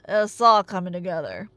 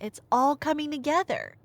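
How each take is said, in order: First: It is said in a put-on character voice. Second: It is said in the speaker's normal voice. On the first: "Fine. ... That good enough for you?" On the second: "No, I'm not going to do the voice"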